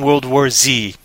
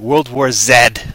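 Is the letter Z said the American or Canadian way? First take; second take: American; Canadian. First: The letter Z is said the American way. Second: The letter Z is said the Canadian way.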